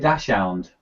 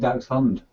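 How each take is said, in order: First: The first part sounds like 'dash'. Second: The first part sounds like 'dacks'. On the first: Someone else said it. The speaker calls it wrong. "they always say to me, "Oh, is he is he a dash hound?"" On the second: The speaker corrects the name. The speaker calls it right. "I pronounce it Dax Dachshund"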